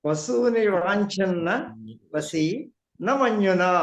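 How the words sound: The phrase breaks right after vasi. The listener understands it easily. The speaker calls it right. "వసీతో ఆగిపోవాలి మళ్ళీ నా మన్యున"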